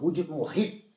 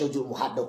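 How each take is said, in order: First: The last word ends with the sound 'hid'. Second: The last word ends with the sound 'had'. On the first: The speaker calls it right. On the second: The speaker calls it wrong.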